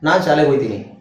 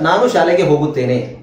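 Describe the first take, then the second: First: The words are shortened and run together. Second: Every syllable is said in its full form. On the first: This is the everyday spoken style. "ಎಲ್ಲದನ್ನು short ಮಾಡ್ತೀವಿ" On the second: This is the formal written style. "ಪುಸ್ತಕದ ರೀತಿ"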